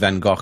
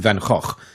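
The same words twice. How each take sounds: First: The name is said with an English-style pronunciation. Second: The name is said with a Dutch-style pronunciation. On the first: The speaker calls it wrong. "it's actually not Van Gogh" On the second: The speaker calls it right. "It's technically Van Gogh"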